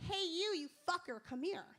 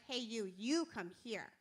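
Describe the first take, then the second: First: It is said in a scary, aggressive tone. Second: It is said in a sexy, inviting tone.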